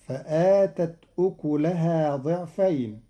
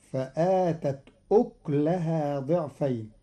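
First: أكلها with a damma on the kaf, ukuleha; Hafs reading. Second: أكلها with a silent kaf, ukleha; Qalun reading. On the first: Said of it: "بإسكان الكاف". (أكلها بضم الكاف) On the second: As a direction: close the kaf in أكلها with no vowel. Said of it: "قرأ قالون كلمة "أكلها" بإسكان الكاف". (أكلها بإسكان الكاف) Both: Shown as a demonstration.

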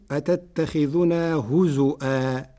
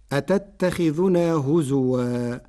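First: هزؤا with a glottal stop, huzu'a; slow هزؤا with a clear hamza; Warsh reading. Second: هزوا with w, recited slowly; هزوا ending huzuwa; Hafs reading. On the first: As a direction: put a hamza in هزؤا instead of w. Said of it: "بالهمز بدلا من الواو". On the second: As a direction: say هزوا with a w sound. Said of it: "قرأ ورش "هزوا" بالهمز بدلا من الواو". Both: Shown as a demonstration.

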